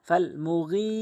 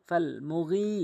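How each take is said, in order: The two takes are said the same way.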